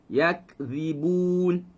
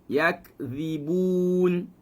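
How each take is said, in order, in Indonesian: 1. Kata yakzibun diucapkan secara alami dengan sedikit udara. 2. Kata yakzibun diucapkan secara alami dengan sedikit udara.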